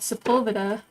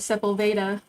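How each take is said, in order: First: It has a natural, everyday inflection. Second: It has an odd, robotic inflection. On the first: "one of the ones next to us is called" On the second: "the G P S will call it"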